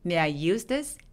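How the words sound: The word use is clearly stressed. The speaker calls it right. "use에 강세 줘서"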